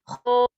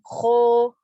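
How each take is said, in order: First: The vowel is open, heavy and full. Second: The lips are pushed out, vowel leaning toward u. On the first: The speaker calls it right. "Berat dan bulat" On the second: The speaker calls it wrong. "Jadi bukan kho, so. Kalau monyong jatuhnya jadi domah, jadi u"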